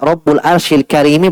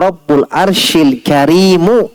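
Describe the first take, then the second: First: The last word ends with an i vowel. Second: The last word ends with a u vowel. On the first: The word 'noble' describes the throne. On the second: The word 'noble' describes God.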